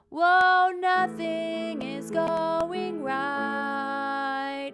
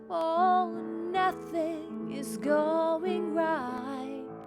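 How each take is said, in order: First: It is said flatly and mechanically, like a robot. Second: It is said expressively, with feeling and intention. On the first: The speaker calls it wrong. "It sounds like a robot then" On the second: The speaker calls it right.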